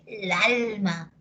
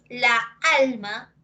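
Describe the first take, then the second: First: The two a sounds merge into one. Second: Both a sounds are pronounced separately. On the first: "Le quita una, así olímpicamente le quita una" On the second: "en lugar de decir la alma"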